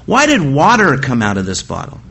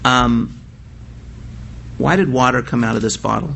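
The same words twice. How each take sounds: First: The word water carries strong emphasis. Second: The word water carries no special emphasis. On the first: The question asks why it was water that came out. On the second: The question asks what made the water come out.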